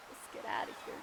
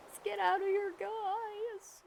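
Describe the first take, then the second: First: Said in the usual way. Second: Louder and higher, calling out Let's get outta here to the viewers. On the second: Real, not acted. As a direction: shout it out to the guys, bright and big. Repeat of the line, called out loud.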